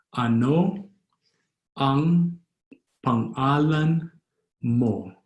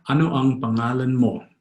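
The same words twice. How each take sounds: First: Long pauses between drawn-out words; slow, word by word. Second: Words run together without pauses; fast, native-style. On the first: Teacher repeating the name question for learners, slowly word by word. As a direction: sound out each word of "Ano ang pangalan mo" separately. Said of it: "Or fast, as a Filipino would". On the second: Teacher showing how a Filipino would say it, fast and connected. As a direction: say "Ano ang pangalan mo" as one fluent phrase. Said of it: "Or fast, as a Filipino would say it". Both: Shown as a demonstration.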